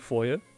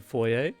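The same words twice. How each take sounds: First: The word is said in an American accent. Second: The word is said in a non-American accent.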